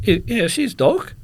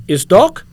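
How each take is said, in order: First: High, loud answer in mock broken English; echoing the guard. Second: Loud, high incredulous question; broken-English question, pitched right up; imitated foreign security guard. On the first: Traveller confirming to guard, high mimicking reply. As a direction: answer back in the guard's own style. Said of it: "I says". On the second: Guard questioning the x-ray image, loud disbelief. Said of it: "He goes, he points at the image".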